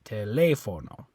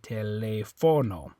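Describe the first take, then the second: First: The stress is on the third-to-last syllable. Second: The stress is on the second-to-last syllable. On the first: The speaker calls it right. "they want you to stress this, the third to last syllable" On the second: The speaker calls it wrong. "if there was no accent mark, you'd say telefono"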